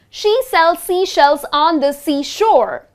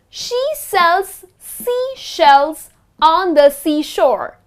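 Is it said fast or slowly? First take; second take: fast; slowly. First: It is said very fast. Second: It is said at a slower, careful pace.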